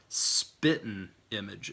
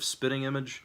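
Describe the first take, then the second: First: The first word ends without the g sound. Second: The first word ends with the g sound. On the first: "you will drop the G off of it" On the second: "instead of"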